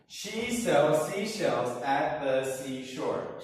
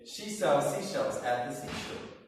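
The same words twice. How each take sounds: First: It is said at a faster pace. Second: It is said at the fastest pace.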